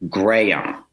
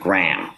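First: The name is stretched over about three syllables. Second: The name is said as a single syllable. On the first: The speaker calls it right. "which is sort of three syllables" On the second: The speaker calls it wrong. "which is one, the way I was saying my upstate New York twang"

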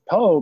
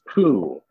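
First: The name ends in a plain oh vowel. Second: The name ends in an oo vowel. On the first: "in English, we can pronounce it differently. We can pronounce it po" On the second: "If we say it like they're saying it in the Japanese, it's poo"

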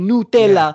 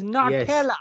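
First: The word is said with an Italian pronunciation. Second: The word is said with an English pronunciation. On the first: This is how it is said in Italy. "But in Italy, they might say Nutella" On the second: This is how it is said in London. "but we're in London, isn't it, bruv? So it's Nutella"

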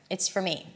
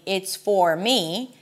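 First: The words run together with a reduced vowel. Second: Each word is said separately with a full vowel. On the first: The speaker calls it right. "the word for is reduced to fur, and I connect everything together" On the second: The speaker calls it wrong. "I don't want to pronounce every word separately"

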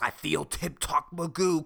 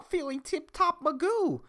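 First: A put-on gruff, tough-sounding voice. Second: A natural high, squeaky voice. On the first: It imitates someone who sounds like a badass. "That was a horrible impression" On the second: It is the speaker in his own voice. "when I say it with my fucking squeaky voice"

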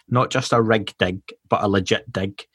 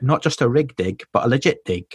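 First: It is said in a Scottish accent. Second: It is said in an English accent. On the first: "in a Scottish accent, that's really hard to say" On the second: "That was my English accent"

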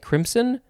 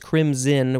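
First: The middle consonant is a hissing S sound. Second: The middle consonant is a buzzing Z sound. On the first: The speaker calls it wrong. "you could maybe also say crimson. But that sounds a little bit weird" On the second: The speaker calls it right. "the pronunciation is crimson with a Z sound"

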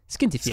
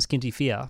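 First: It is said in a strong Irish accent. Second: It is said in the speaker's plain accent. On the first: The speaker calls it right. "if you pronounce that with a strong Irish accent, you'll get closer" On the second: The speaker calls it wrong. "which I'm pretty sure I've pronounced wrong"

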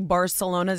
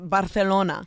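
First: The word is said with an English pronunciation. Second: The word is said with a Spanish lisped pronunciation. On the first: The speaker calls it wrong. "they don't say Barcelona" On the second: The speaker calls it right. "It's Barcelona"

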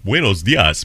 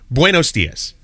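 First: It is said with an exaggerated Spanish accent. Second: It is said in his normal American accent.

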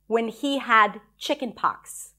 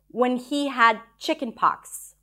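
First: The line is said flatly, with little feeling. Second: The line is said flatly, with little feeling.

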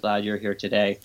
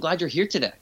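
First: The pitch stays flat with little emotion. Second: The pitch moves up and down with warm emotion. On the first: The words come across as detached and intellectual. The speaker calls it wrong. "No, doesn't work" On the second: The speaker genuinely feels glad and connected. The speaker calls it right. "The tone of your voice goes up and down, not like monotonous"

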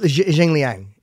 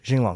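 First: The second syllable sounds like 'liang'. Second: The second syllable sounds like 'long'. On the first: The speaker calls it wrong. "it does look like Jing Liang. ... But it's not" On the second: The speaker calls it right. "How do you pronounce it?"

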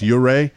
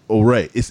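First: The name begins with a 'you' sound. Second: The name begins with an 'oh' sound. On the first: The speaker calls it right. "It's pronounced Uray" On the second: The speaker calls it wrong. "Am I saying that right?"

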